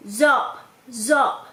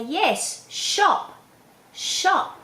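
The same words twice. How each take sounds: First: Put-on "Zop" with a z for sh, childlike; child's lisped shop. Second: "shop" with a long hissed sh, higher; clear correct sh. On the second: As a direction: model "shop, shop" slowly stressing the sh. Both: Shown as a demonstration. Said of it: "then you can say".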